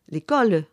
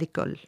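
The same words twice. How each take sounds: First: The final vowel is pronounced audibly. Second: The final vowel is silent. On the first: This is the southern Marseille pronunciation. "le Marseillais va prononcer le A final du latin comme un E" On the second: This is the Parisian pronunciation. "et non pas"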